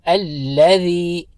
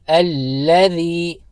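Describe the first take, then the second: The two takes are said the same way.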